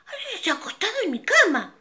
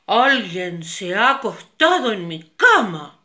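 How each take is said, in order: First: Much higher, fast mama bear voice. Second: Loud big-bear voice; papa bear loud. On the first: Mama bear finds her bed used, high and fast. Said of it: "El oso mediano dijo". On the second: Papa bear finds his bed used, loud big voice. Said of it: "el oso grande dijo". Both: Acted.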